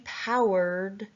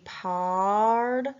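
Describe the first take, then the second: First: The vowel sounds like 'ow' in out. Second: The vowel sounds like 'ah' in father. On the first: "the ow like an out" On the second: "the ah like in the O sound"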